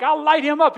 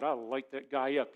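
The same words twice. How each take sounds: First: "I'll light him up" shouted loud and high; fighting urge. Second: Said in the usual way. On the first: Retold or imitated. Preacher reliving the urge to fight his neighbor, loud. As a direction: bark "light him up" like you want to fight. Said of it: "I drive by and, like". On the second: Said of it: "I thought".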